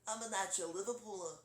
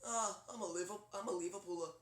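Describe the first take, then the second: First: Lightly done Liverpool accent, slightly raised; cartoon take on a Liverpool accent. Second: Lightly done low Liverpool accent; a famous musician. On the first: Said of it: "a little bit of a famous musician". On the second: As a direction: aim for a droopy Liverpool accent. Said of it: "like, really low". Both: Shown as a demonstration.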